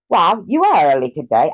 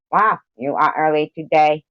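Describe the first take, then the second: First: Higher, louder attempt at an Australian accent; failed Australian. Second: A lightly voiced Springman; imitating Springman. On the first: Streamer greeting a viewer in a failed Australian accent. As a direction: try an Australian accent and miss. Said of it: "I can't do Australian". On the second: Streamer mimicking Springman greeting a viewer. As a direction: mimic a friend's voice, loosely. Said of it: "Maybe I'll talk like Springman".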